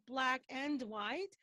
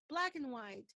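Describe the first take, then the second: First: The word 'and' has a full, clear vowel. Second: The word 'and' is quick and reduced. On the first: The speaker calls it wrong. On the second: The speaker calls it right.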